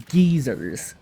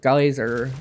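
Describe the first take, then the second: First: The first syllable rhymes with 'gee'. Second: The first syllable rhymes with 'guy'. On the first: "they called them geezers" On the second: "like the American way"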